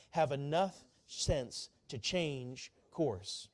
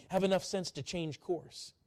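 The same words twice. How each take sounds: First: Very slow, every word spaced; slow call to repeat. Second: Said in the usual way. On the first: Shown as a demonstration. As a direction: lead them word by word. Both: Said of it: "Would you say that with me?".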